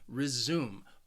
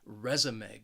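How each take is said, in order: First: The stress is on the second syllable. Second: The stress is on the first syllable. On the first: It means to continue something. "the stress is on the second syllable" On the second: It names a written record of work experience. "the stress is on that first syllable"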